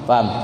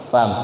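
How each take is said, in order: No difference in how they are said.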